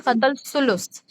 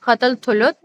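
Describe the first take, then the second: First: The name is said with s sounds. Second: The name is said with th sounds. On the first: "or it can be Qatal Sulus, S U L S U S" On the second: "It can be pronounced as Qatal Thuluth, T H U L U T H"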